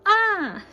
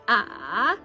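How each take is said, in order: First: The pitch falls sharply from high to low. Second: The pitch dips down, then comes back up. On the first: "and this is down" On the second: "so it's up and down"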